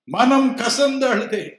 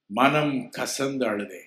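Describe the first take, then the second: First: மனம் கசந்து அழுதே cried out high and loud in grief; wailing repeat. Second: Said in the usual way. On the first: Shown as a demonstration. Preacher repeating மனம் கசந்து அழுதே as a high, loud wail.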